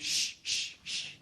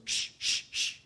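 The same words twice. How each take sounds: First: Whispered shh from the library readers; shushing. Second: Sharper, more insistent whispered shh; emphatic shushing. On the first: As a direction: hush him with a breathy shh. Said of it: "everybody around me went". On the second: Annoyed readers shushing the laughing scholar again, emphatic whispered shh. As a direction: shush him harder this time. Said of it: "more emphatically this time goes". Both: Retold or imitated.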